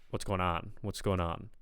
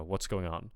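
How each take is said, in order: First: "What's going on?" with a light New York accent; hint of Brooklyn New York in "going on"; New York-tinged. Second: Standard American "What's going on?". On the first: Coach echoes what they are hearing, New York-tinged. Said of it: "But I'm kind of hearing". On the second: Coach models the expected greeting, standard American. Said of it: "I expect, I would expect". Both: Shown as a demonstration.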